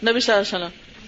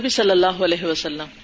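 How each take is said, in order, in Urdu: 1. یہ جملہ مختصر ادا کیا جاتا ہے، اس میں کچھ الفاظ کے حصے نگل لیے جاتے ہیں۔ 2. یہ جملہ پورا ادا کیا جاتا ہے، ہر حصہ واضح طور پر بولا جاتا ہے۔ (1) "ایسے کر دیتے ہیں" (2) "نہیں، ... تو صحیح پروناؤنس کیجئے"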